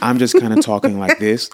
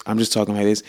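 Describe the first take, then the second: First: His talking voice. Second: Said in the usual way. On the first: Shown as a demonstration. Husband shows wife how he talks at dinner, louder. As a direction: show how he talks across the table.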